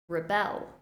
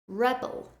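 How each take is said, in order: First: The stress is on the second syllable. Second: The stress is on the first syllable. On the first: It is a verb. "the verb form, stressing the second syllable" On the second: It is a noun. "the noun form, stressing the first syllable"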